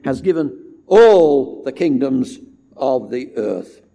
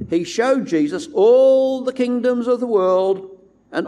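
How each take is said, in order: First: All said louder and slower; stress on all. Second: All lifted high and pushed out; stress on all. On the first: Preacher stressing God gave all the kingdoms. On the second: Preacher stressing all the kingdoms Satan showed. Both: Shown as a demonstration.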